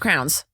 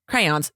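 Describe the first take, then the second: First: The word is squeezed into one syllable. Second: The word is said with two syllables.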